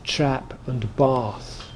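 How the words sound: It is said in a Southern English accent.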